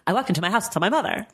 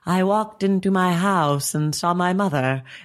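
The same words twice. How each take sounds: First: The sentence is spoken noticeably faster than usual. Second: The sentence is spoken at an ordinary speed. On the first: This is audiobook playback at about 1.5 speed. "it's more like" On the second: This is audiobook playback at regular speed. "instead of saying like"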